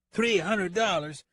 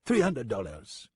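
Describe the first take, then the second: First: High, drawn-out outraged echo; shocked disbelief. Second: Put-on slow French-accented verdict; French-accented price quote. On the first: Acted. Deputy nearly leaves his chair at the fee, shocked. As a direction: balk at the price, far higher. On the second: French gunman names his fee to the deputy, matter-of-fact French accent. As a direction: state the total in a French accent, falling at the end.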